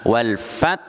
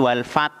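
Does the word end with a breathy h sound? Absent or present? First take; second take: present; absent. First: The word ends with a final breathy h. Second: The word ends without a final breathy h. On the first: The speaker calls it right. "harus ada ha" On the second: The speaker calls it wrong.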